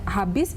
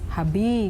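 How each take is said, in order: First: The word ends in an s sound. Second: The word ends in a vowel sound.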